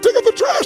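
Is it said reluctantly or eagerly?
eagerly. It is said in an eager, happy tone.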